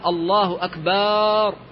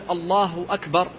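First: The vowel after the b is drawn out long. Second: The vowel after the b is short. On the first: The word comes to mean drums. The speaker calls it wrong. "مد الباء وأشبع حركتها" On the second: God is the greatest. The speaker calls it right. "فبدلا من أن يقول الله أكبر"

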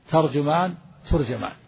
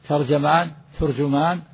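Both takes have the same delivery.

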